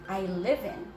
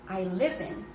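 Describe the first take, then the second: No difference in how they are said.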